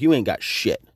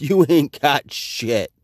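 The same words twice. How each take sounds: First: Said in the usual way. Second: Slow, drawn-out "You ain't got shit." with mockery; slow mocking retort.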